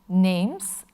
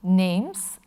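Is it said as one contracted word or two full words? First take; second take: contracted; contracted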